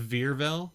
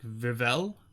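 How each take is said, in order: First: A hard R is heard in the middle. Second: No hard R is heard in the middle. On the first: The speaker calls it wrong. "instead of Virvel" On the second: The speaker calls it right. "so there's no hard R in the middle"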